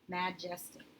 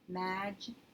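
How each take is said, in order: First: The first vowel is a short a sound. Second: The same.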